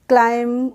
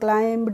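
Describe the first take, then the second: First: The word ends on m with no b. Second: The word ends with an audible b. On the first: The speaker calls it right. "ऐसे ही हम पढ़ते हैं" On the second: The speaker calls it wrong. "ऐसे नहीं पढ़ते हैं"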